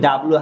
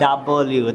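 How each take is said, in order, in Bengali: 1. অক্ষরের নামটি ছোট 'lu' দিয়ে শেষ হয়। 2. অক্ষরের নামটি পূর্ণ 'lyoo' দিয়ে শেষ হয়। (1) "আয়রা কিন্তু ডাবলু বলেনি।" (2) "ও কিন্তু বলেছে ডাবলিউ"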